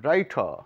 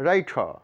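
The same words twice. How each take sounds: No difference in how they are said.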